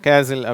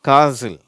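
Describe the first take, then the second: First: The first vowel is a short flat 'a'. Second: The first vowel is a long open 'ah'. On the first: "சிலர் இதை கேசில் அப்படின்வாங்க" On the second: "இது காசில்"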